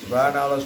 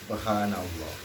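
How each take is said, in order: First: It is rattled off quickly and mechanically. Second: It is said slowly and with deep feeling. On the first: The words are only spoken by the tongue. The speaker calls it wrong. "Gak begitu harusnya" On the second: The words are felt in the heart and mind. The speaker calls it right. "Ingat dulu baru puji"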